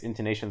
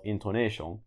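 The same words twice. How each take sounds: First: Said in the usual way. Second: Second "intonation" said as a Japanese loanword; Japanese pronunciation. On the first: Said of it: "in Japanese linguistics". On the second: Shown as a demonstration. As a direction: say "intonation" with Japanese vowels and syllables. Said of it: "in Japanese linguistics, intonation is called".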